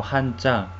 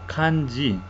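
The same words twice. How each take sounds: First: "hanja" said the Korean way, h and ch sounds; Korean pronunciation. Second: "kanji" said the Japanese way, k and j sounds; Japanese pronunciation. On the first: Teacher showing how Koreans say it, Korean "hanja". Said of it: "los coreanos pronuncian como hanja". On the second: Teacher contrasting nations' pronunciations, Japanese "kanji". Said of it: "los japoneses pronuncian como kanji". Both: Shown as a demonstration.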